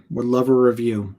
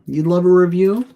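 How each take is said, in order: First: Said in the usual way. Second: Much higher and louder, "review?" swinging up; surprised echo. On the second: Acted. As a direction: toss the request back in mock surprise. Echoing the viewer's request back.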